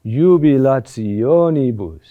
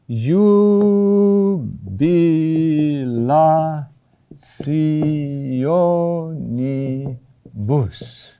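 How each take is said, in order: First: JUBILATIONIBUS as one flowing word, rising onto the O, then falling away; accent on O. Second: JUBILATIONIBUS very slow, each syllable drawn out and separate. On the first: Teacher showing where the Latin accent falls, "jubilationibus" stressed on O. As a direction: lean slowly into the O of "jubilationibus". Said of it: "The accent is on O". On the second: Teacher spelling out a long Latin word for students, syllable by syllable. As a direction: stretch "jubilationibus" into evenly held, hyphenated syllables. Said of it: "a hyphen between all of those syllables".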